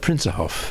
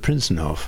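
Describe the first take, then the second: First: The n sound in the middle is dropped. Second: The n sound in the middle is pronounced. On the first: "they talk about the Prinzenhof" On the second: "instead of the Prinzenhof"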